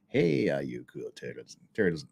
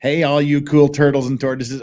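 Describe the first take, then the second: First: Low, soft, lightly put-on country voice; Tug's voice. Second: Said in the usual way. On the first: Vlogger tries reading a chat message in Tug's voice, low and soft. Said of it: "in Tug's voice". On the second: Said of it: "do I have to say that in Tug's voice?".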